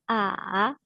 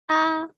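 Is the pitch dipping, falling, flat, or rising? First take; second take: dipping; flat. First: The pitch falls low, then rises. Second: The pitch stays level and high.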